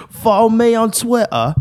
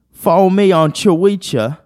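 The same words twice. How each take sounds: First: Put-on very high British accent, "Twitter" as "twi'ah"; mock British accent. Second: Put-on high British accent, "Twitter" misread as "cho-wee-cha"; mock British accent. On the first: Reading the British meme aloud, mock British accent. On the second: Puzzling out a British meme, mock British accent. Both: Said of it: "British people be like".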